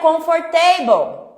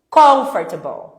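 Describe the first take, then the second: First: The stress falls on a later syllable. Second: The stress falls on the first syllable. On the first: The speaker calls it wrong. "Não é comfortable" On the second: The speaker calls it right. "Sílaba tônica no com"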